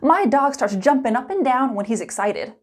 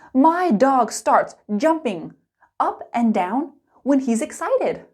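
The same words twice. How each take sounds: First: It is spoken quickly with linked sounds. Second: It is spoken slowly and clearly. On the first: "Let's speed it up" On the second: "Slow and clear"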